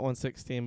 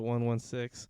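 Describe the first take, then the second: First: The number is read as one, sixteen. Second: The number is read as one, one, six. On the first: The speaker calls it wrong. "not one sixteen" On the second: The speaker calls it right. "but one one six"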